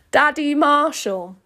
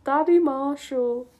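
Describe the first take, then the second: First: Loud, high, drawn-out declaration. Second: High, slow cringe; mortified repeat. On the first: Acted. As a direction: announce it slowly and loudly. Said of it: "I have to say this out loud". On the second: Real, not acted. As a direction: repeat it in drawn-out dismay. Repeats line in dismay.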